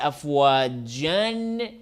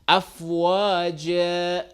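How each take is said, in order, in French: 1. Le mot se termine par un son 'n'. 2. Le mot se termine par une voyelle 'a' longue. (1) "la vérité c'est afwajan si on continue la lecture" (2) "on change le double A A simple, mais avec prolongation"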